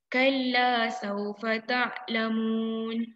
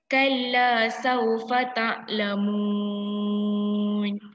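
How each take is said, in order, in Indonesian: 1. Vokal akhir ditahan selama dua ketukan. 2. Vokal akhir ditahan selama empat ketukan. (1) "Muallimah nak dua harakat je" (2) "Contoh kalau empat harakat"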